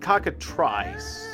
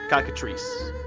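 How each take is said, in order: First: The last syllable sounds like 'try'. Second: The last syllable sounds like 'tree'. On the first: The speaker calls it wrong. "Like try" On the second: The speaker calls it right. "Yeah, tree"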